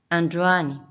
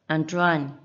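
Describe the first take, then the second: No difference in how they are said.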